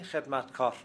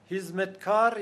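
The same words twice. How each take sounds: First: Said in the usual way. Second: هیزمتکار as "hizmetkar", h for kh; Turkish pronunciation. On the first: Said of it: "یعنی خدمتکار". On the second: Shown as a demonstration. Linguist gives the Turkish word for servant, هیزمتکار with h.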